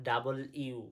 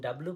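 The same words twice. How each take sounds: First: "ডাবল ইউ" as double plus you; W in full. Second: Said in the usual way. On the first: Shown as a demonstration. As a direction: give "ডাবল ইউ" all its syllables. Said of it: "আজ থেকে পড়বো". ("ডাবল ইউ" ভেঙে, পুরো উচ্চারণ) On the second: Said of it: "এতদিন ডাব্লু পড়েছি".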